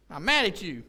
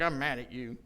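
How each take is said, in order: First: Louder mock-angry insistence; mock insistent anger. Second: Low, understated imitation of being mad; mock-serious anger. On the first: Wife insists to husband she's still mad after laughing, mock insistent. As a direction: imitate someone insisting they are still mad. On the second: Wife announces to husband that she is mad, understated mock anger.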